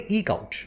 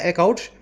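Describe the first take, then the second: First: The first word is said with a long 'ee', 'eek'. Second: The first word is said with a short 'e', 'ek'. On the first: The speaker calls it right. "लेकिन बोला जाता है इसको actual में ईक आउट।" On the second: The speaker calls it wrong. "लिखने में क्या है, एकआउट। मेरे जुबान पे भी वही चढ़ा हुआ है"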